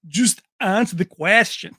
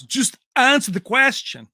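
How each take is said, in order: First: Mock Van Damme accent, louder one-liner; Van Damme impression. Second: Mock Van Damme accent, higher and louder; Van Damme impression. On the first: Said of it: "their accent trying to do these one-liners". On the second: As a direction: snap at the reporter like Van Damme. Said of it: "he goes".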